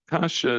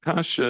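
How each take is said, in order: First: The word is said as kasha. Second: The same.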